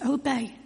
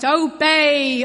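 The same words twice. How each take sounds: First: The word is said quietly and gently. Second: The word is said loudly and harshly. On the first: A gentle invitation, how Jesus speaks. The speaker calls it right. "It's a still small voice" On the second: A harsh command, not how Jesus speaks. The speaker calls it wrong. "It doesn't say it in a loud voice"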